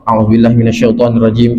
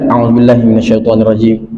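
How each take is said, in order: First: It is said hurriedly, without feeling. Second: It is said slowly, with deep feeling.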